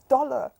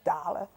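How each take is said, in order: First: The first vowel sounds like an O. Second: The first vowel sounds like an A. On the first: The speaker calls it right. "it is dollar" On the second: The speaker calls it wrong. "I hear them say dollar"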